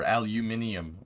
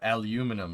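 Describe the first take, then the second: First: It has five syllables, ending in -ium. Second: It has four syllables, ending in -num. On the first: This is the way other people say it. "Or aluminium" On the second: This is the way the speaker's own group says it. "as we like to say"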